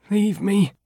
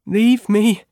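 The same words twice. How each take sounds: First: High, weak moan of "Leave". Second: High, louder, pleading "Leave"; moaning. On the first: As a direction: give up in a higher, fading moan. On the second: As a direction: moan it again with more push. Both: Acted. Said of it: "Freed moaned".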